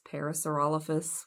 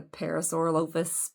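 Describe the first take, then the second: First: Parasaurolophus as para-saur-OL-o-fus; Parasaurolophus, middle syllable rhyming with "doll"; stress on ROL. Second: Parasaurolophus as para-saur-o-LOAF-us; Parasaurolophus, ending like "loafus"; long O in lo. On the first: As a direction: say Parasaurolophus with a short open "ol". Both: Shown as a demonstration. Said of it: "whatever you wanna call it".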